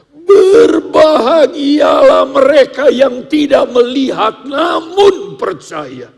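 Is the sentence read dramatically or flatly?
dramatic. It is acted out with dramatic emphasis. "kita ekspresikan seperti sebuah sandiwara"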